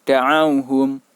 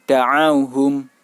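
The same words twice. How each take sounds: The two takes are said the same way.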